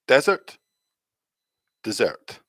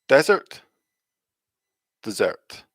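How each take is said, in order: Both takes have the same delivery.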